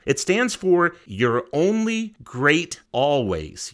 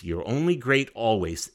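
First: "You're Only Great Always" spelled out slowly, each word weighted; slow and deliberate. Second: Said in the usual way. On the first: Shown as a demonstration. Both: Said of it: "It actually stands for something".

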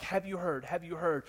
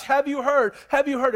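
First: Softer, murmured repeat; hushed gossip. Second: Higher and louder, eager repeat; buzzing with the news; excited gossip. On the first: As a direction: pass the rumour on under the breath. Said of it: "people were all stirred up". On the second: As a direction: townsfolk excitedly asking each other. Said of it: "People were excited about this". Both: Acted.

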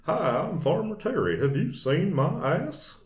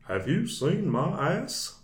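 First: Higher, slow Texan farmer drawl like Hank Hill; a slow Southern farmer twang; Farmer Terry voice. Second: High, slow Hank Hill-style drawl; a Texan farmer twang; Farmer Terry voice. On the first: Shown as a demonstration. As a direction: introduce yourself as a simple Texan farmer. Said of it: "it sounded a lot like Hank". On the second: Retold or imitated. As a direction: play the dim farmer asking for his donkey. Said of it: "that's the way I did the voice".

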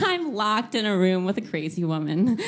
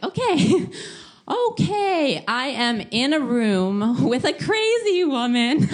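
First: Chuckling half-panic; laughing panic. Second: High, loud, slow rising panic; mock panic. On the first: Retold or imitated. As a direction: laugh through the repeat. Repeats with a laugh. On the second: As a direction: stretch the panic over every word. Panicking about crazy roommate.

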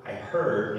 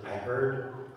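First: "heard" hit loudly for emphasis; stress on HEARD. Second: Said in the usual way. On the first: Shown as a demonstration. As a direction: punch the word "heard" so listeners notice it. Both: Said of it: "notice it says".

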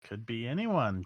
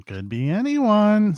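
First: Put-on soft old lady voice, lilting up mid-phrase; hushed old villager; first old lady. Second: Put-on very high, slow old lady voice; high-pitched old woman, stretched out; second old lady. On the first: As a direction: say it softly, like an old woman musing. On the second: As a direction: echo it in a high, drawn-out crone voice. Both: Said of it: "says the other one".

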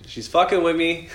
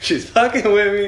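First: Higher, drawn-out mock alarm; slow, raised-voice realisation of being toyed with; mock disbelief. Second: High, loud, drawn-out mock outcry; hammed-up alarm at being toyed with; louder mock disbelief. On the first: Grandson reacts to strange happenings at home, mock disbelief. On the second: Grandson repeats it after laughing, louder mock disbelief.

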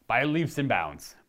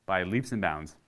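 First: "by leaps and bounds" drawn out slowly, with "leaps" stressed; slow emphasis. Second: Said in the usual way. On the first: Real, not acted. Gamer stressing how much he loves Witcher, slow and emphatic. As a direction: lean on "leaps" and stretch the phrase out.

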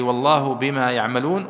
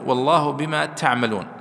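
First: "يعملون" opening with ya, as ya'maloon; reading with ya. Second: "تعملون" opening with ta, as ta'maloon; reading with ta. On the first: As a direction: start "يعملون" clearly on the y sound. (قراءة "يعملون" بالياء) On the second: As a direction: start "تعملون" clearly on the t sound. (قراءة "تعملون" بالتاء) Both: Shown as a demonstration. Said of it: "وقرئ بالياء".

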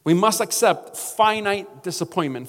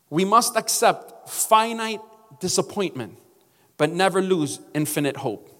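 First: MUST stressed, said again firmly; repeated for emphasis. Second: Each word measured out slowly; slow, weighty quote. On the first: Pastor repeating the quote so it sinks in, firm. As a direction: hit "must" the second time. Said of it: "I'm gonna say it again". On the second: Pastor reading King's words to the church, slow and weighty. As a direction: let the quote land slowly. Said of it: "something that Martin Luther King said". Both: Shown as a demonstration.

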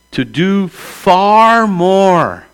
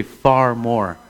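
First: Far drawn out very slowly and high; stress on far more. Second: Said in the usual way. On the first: Shown as a demonstration. Reading the verse to the church, stretching far out slowly. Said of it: "everybody say, "Far more". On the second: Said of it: "everybody say".

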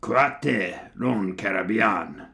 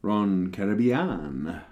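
First: Slow German accent that comes out rather Spanish; mock German accent with open "ah" vowels; attempted German accent. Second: "Caribbean" drawn out, ending in "-bee-an"; slow, careful Spanish-label reading of "Caribbean"; attempted Spanish pronunciation. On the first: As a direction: put on a drawn-out German accent, badly. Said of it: "pronunciate it in a German accent". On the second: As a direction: slowly sound out "Caribbean" with a stretched last syllable. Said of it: "Try to pronunciate it". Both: Shown as a demonstration.

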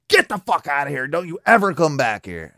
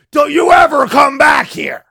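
First: Said in the usual way. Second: Put-on high, loud yell at a kid; mock shout. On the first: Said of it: "final words to him". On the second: Homeowner yelling at the scared kid, a loud shout. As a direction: bark it out to scare him off. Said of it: "I just said".

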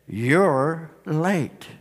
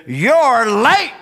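First: Low, soft, hushed reproach; downcast Mary. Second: Indignant, raised-voice scolding; scolding Martha. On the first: Mary fallen at the feet of Jesus, downcast. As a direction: let the two words drop quietly, far apart. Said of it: "She falls on her face". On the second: Martha confronting Jesus with hands on hips, scolding. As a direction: chide him, punching the word late. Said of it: "her hands are on her hips". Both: Acted.

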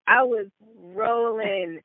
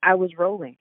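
First: ROLLING stretched out slowly, pitched up; slow, higher-pitched stress on "rolling"; drawn-out emphasis. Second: Said in the usual way. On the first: Real, not acted. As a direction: drag out "rolling" for comic emphasis.

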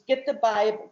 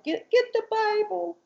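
First: Said in the usual way. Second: Lightly voiced high child, repeating the request; a hint of a small girl asking twice; mother imitating her daughter's childlike voice; little girl voice. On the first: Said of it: "And he's". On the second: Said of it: "she's talking like this".

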